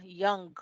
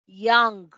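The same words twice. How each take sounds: First: Put-on "Young" repeated softer, ending in ng; soft repeat of "Young" with the final ng. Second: Put-on "Young" ending in a back ng, said loud; final ng demo. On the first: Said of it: "Acá, ¿verdad?". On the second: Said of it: "el sonido de esa N al final". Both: Shown as a demonstration.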